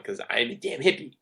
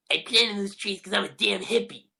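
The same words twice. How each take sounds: First: Said in the usual way. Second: High, nasal-free bratty cartoon kid voice; snide cartoon brat, pitched up; Eric Cartman impression. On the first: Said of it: "I kinda had to do it". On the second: Shown as a demonstration. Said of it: "That was my best Eric Cartman impression".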